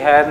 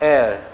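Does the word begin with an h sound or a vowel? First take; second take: h sound; vowel. First: The word begins with an h sound. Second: The word begins with a vowel sound. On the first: The speaker calls it wrong. "હવે આને વંચાય બી હેર નહીં પાછો" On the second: The speaker calls it right. "Pronunciation છે એ vowel છે"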